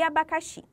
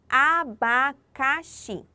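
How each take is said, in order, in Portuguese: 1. A palavra é dita em ritmo normal. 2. A palavra é dita devagar e de forma pausada.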